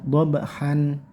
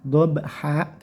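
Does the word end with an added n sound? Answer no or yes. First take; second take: yes; no. First: The word ends with an added n sound. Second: The word ends on a long vowel without n. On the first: The speaker calls it wrong. "ditambah n ya, dobhan, tidak ya" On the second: The speaker calls it right. "tidak pakai n ataupun ditambahi hamzah ya, dobha gitu"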